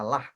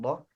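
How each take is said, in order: First: The syllable is light with a bright vowel. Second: The syllable is heavy with a dark vowel. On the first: The speaker calls it right. "dengan tipis ... dengan kata lah" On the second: The speaker calls it wrong. "bukan loh"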